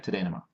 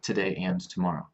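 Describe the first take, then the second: First: The words run together, with 'and' reduced. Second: Each word is clear, with 'and' fully pronounced. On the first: This is ordinary everyday speech. "But in my daily life" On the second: This is careful, clear speech. "If I'm speaking very clearly, I try to separate the words"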